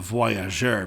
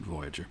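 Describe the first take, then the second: First: The word is said with a French pronunciation. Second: The word is said with an English pronunciation. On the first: The speaker calls it right. "it should be called the, the Voyageur" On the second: The speaker calls it wrong. "people pronounce it Voyager"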